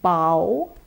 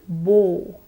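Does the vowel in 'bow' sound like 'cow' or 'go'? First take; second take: cow; go. First: The vowel sounds like the one in 'cow'. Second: The vowel sounds like the one in 'go'. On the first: To bend forward at the waist to show respect. "B followed by the ow sound" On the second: A ribbon tied into a fancy knot. "B followed by the diphthong O"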